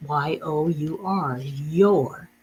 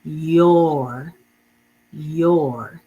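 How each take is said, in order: First: Y O U R spelt slowly, then your. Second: Your said louder with a rising tune; modeled word. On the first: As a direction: spell it out, then say your plainly. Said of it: "we make it your". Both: Shown as a demonstration.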